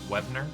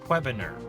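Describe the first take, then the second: First: The name is said shorter and more compactly. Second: The name is drawn out and over-pronounced. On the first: The speaker calls it right. "I'm sure it's pronounced Webner" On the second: The speaker calls it wrong. "that was me like over pronouncing the name"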